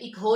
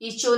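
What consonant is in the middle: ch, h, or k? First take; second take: h; ch. First: The middle has a k followed by an h. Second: The middle consonant is a ch sound. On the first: "इक हो नहीं पढ़ेंगे कि एच की sound आए" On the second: "इचो नहीं पढ़ेंगे, सी एच की साउंड नहीं आएगी"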